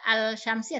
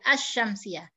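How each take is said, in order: First: The l is pronounced clearly before the sh. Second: The l merges into a doubled sh sound. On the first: The speaker calls it wrong. "tidak Al-Syamsiyah" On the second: The speaker calls it right. "tapi Asy-Syamsiyah"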